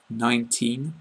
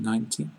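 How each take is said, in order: First: NINETEEN with a long EE and a clear final N; long final vowel. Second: NINETY with a short, softer final EE and no N; short final vowel. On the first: Teacher applying the same rule, long EE in NINETEEN. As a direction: hold the last vowel of NINETEEN, closing on N. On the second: Teacher applying the same rule, short ending on NINETY. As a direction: let NINETY end briefly and softly. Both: Shown as a demonstration. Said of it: "it's the same for".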